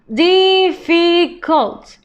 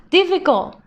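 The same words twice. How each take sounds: First: Difficult stretched slowly, each syllable clear; slow modelling voice. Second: Said in the usual way. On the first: Shown as a demonstration. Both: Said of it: "teacher models word then slows".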